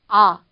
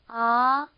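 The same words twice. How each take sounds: First: The pitch falls from start to end. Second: The pitch rises steadily from start to end. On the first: "일성 같은 경우는 떨어지는 음이에요" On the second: "이렇게 올라가는 음인 거죠"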